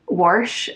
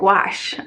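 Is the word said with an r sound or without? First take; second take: with r; without r. First: The word has an r sound before sh. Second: The word has no r sound before sh. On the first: This is the speaker's own habitual way. "I'll say warsh" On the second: This is how most people say it. "to say it flat, like to say it wash"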